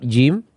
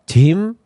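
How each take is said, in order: First: It is said with standard Arabic articulation. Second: It is said with a Javanese-style pronunciation. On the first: The speaker calls it right. "perhatikan huruf jim" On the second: The speaker calls it wrong. "bukan jim atau jim, ... dengan ya keliru ... dialek ya kejawa"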